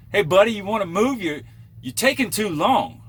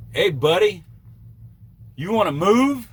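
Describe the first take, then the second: First: High, loud impatient northern whine; annoying northern accent. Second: Put-on high, loud nagging northern accent; mock the pushy northern guy, pitched way up; annoying northern accent. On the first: Retold or imitated. Trucker mocking the impatient driver in a northern accent. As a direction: nag him in that northern accent to hurry. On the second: Trucker mocking a rude northern driver in a northern accent. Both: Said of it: "annoying northern accent".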